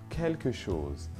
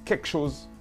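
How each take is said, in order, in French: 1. Chaque son de « quelque » est prononcé. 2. « Quelque » est raccourci et perd son « l ». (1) "Ce mot" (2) "va souvent être prononcé et entendu"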